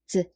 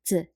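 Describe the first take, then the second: First: It is said with a light, neutral tone. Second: It is said with a light, neutral tone.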